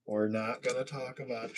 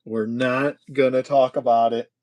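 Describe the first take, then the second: First: Softer, toned-down refusal; hushed dismissal. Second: Louder, emphatic refusal; firm dismissal. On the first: Host hushing up a mishap, softly. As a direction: drop it to a soothing hush. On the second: Host hushing up a mishap, firm and loud. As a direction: shut the subject down firmly. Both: Pretend.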